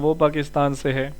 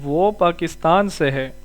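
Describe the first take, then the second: First: It is said plainly, without added force. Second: It is said with forceful emphasis in the tone. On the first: It simply states a fact. "Simple कहना" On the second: It insists that the fact is certain. "ये लहजे में हमने अपनी बात पे जोर दिया"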